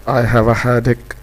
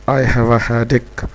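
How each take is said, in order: No difference in how they are said.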